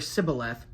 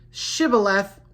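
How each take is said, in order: First: The word begins with an s sound. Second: The word begins with a sh sound. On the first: The speaker calls it wrong. "he was unable to pronounce it right" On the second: The speaker calls it right. "Slight difference there"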